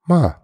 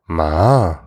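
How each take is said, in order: First: It is said with the question-particle tone. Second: It is said with the tone meaning horse. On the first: It marks a question. "that's just like, oh, it's a question" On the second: It means horse. "you called someone a horse"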